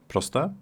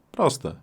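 First: "Proste" rising sharply like a question. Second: "Proste" high at first, then falling firmly; confirming. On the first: Teacher checking that learners follow, questioning. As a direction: ask "Proste" with a high upturn at the end. Teacher asks, then answers herself. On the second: Teacher answering her own check, confirming. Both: Shown as a demonstration.

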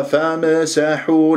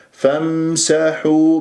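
First: فامسحوا with an echo vowel after m, "fam-e-sahu"; bounced Meem. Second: فامسحوا chanted with the m closed straight into s; clean still Meem. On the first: Teacher imitates a misreading, bounced m in فامسحوا. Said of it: "لا تقلقل الميم". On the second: Teacher models the right way, unbroken m in فامسحوا. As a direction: hum the m of فامسحوا without any bounce. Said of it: "بهذه الطريقة هي الصح". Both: Shown as a demonstration.

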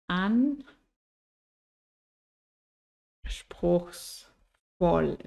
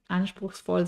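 First: "Anspruchsvoll" very slowly, in three separated parts; syllable by syllable. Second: Said in the usual way. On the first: Shown as a demonstration. Teacher spelling out "Anspruchsvoll" for learners, syllable by syllable. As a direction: draw out "Anspruchsvoll" with long pauses between syllables.

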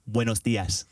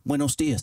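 First: "Buenos dias" with exaggerated Spanish sounds; over-articulate "Buenos dias" in Spanish style; correct Spanish pronunciation. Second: Said in the usual way. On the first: Shown as a demonstration. Showing Brits the Spanish way, "Buenos dias" over-articulated. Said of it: "to correctly say". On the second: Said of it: "we can't say".

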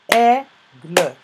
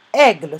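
First: "Aigle" split as AI... GLE, loud first syllable. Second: Said in the usual way. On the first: Shown as a demonstration. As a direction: pause inside "Aigle" and sound the final e. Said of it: "Je l'entends dans la première syllabe". (« Aigle » découpé en syllabes)

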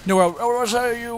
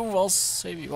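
First: I'll, I'll save you run together, louder and higher; words tumbling out slurred in the rush. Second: Said in the usual way. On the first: Real, not acted. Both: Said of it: "slurred my words right there".

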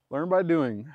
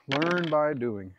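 First: Said in the usual way. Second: LEARN stretched out slowly, loud; slow, raised, drawn-out "learn by doing"; slow emphatic repeat. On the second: Real, not acted. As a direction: draw the motto out at half speed.

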